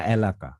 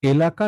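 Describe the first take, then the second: First: এলাকা with an opening "æ" as in cat; open vowel option. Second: এলাকা with a pure opening "e"; close vowel option. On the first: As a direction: offer এলাকা as "æ-la-ka". (এলাকা-র শুরুতে "অ্যা" উচ্চারণ) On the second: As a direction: offer এলাকা as "e-la-ka". (এলাকা-র শুরুতে "এ" উচ্চারণ) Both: Shown as a demonstration. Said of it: "কোনটা বলবো আমরা".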